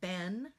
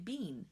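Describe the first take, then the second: First: The vowel is a short eh sound. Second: The vowel is a long ee sound. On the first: This is the American way of saying it. "in American English, we say ben" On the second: This is the British way of saying it. "if you're from uh, the U K, ... You say bean"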